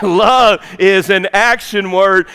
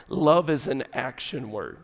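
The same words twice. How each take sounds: First: Slow, punched-out Love; forceful emphasis. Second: Low, soft aside; quiet statement. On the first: Preacher driving the point home to the fellas, emphatic. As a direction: hit Love hard, spacing the words out. Repeats key line with force. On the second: Preacher advising the fellas on love, quiet and low. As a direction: state it gently and much lower. First, understated statement of key line. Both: Shown as a demonstration.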